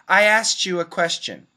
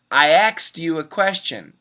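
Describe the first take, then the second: First: The K drops and T blends with Y. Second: The word sounds like 'axed', K before S. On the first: "we drop the K ... T plus Y equals C H" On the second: "it actually sounds like A X E D"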